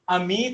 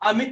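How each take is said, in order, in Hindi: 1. दूसरा स्वर लंबा खींचा जाता है। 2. दूसरा स्वर छोटा रखा जाता है। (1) "अमित नहीं" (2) "इसमें ये मां में बड़ी की मात्रा नहीं लग रही"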